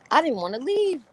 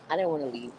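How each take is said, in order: First: High, loud gushing emphasis; wildly enthusiastic, pitched way up; excited exclamation. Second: Said in the usual way. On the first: Real, not acted. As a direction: cry it out high and loud, thrilled. Hyping how good club was.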